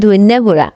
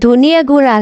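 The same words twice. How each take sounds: First: It is said with a regional dialect pronunciation. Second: It is said with a standard pronunciation. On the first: This is how it is said in the speaker's dialect. "আমার আঞ্চলিক ভাষায় কয় ধনিয়া গুঁড়া" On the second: This is the standard form of the phrase. "এটা হচ্ছে ধনিয়া গুঁড়া রে"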